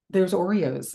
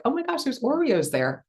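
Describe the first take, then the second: First: Said in the usual way. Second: High, delighted surprise; excited gasp. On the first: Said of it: "my default is always Oreos". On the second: Retold or imitated. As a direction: squeal at finding the cookies.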